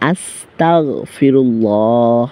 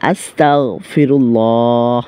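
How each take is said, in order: Both takes have the same delivery.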